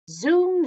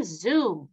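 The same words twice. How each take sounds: First: Zoom pitched up high and loud; rising zoom. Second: Zoom dropping low and falling away. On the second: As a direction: let zoom swoop down low. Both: A narrator's reading. Playful train sound effect.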